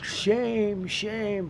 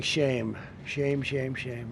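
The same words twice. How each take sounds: First: Mock opera-singer scream. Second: Said in the usual way. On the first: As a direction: imitate a protester shrieking like an opera singer. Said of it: "She's screaming". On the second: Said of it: "another woman that was screaming".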